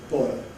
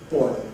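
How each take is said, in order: Both takes have the same delivery.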